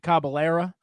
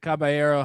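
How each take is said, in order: First: The word ends with an 'a' sound. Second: The word ends with an 'o' sound.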